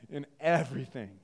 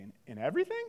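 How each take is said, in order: First: EVERYTHING lower, with a falling close; firm answer. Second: EVERYTHING rising into a question. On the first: Preacher answering a doubter about obeying parents, firm. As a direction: state "in everything" firmly, pitch dropping at the end. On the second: Doubtful listener querying the command to obey parents, questioning. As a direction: ask "In, in everything?" with a rise on everything. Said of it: "You might say". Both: Acted.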